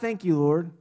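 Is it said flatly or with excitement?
flatly. It is said flatly, as a routine.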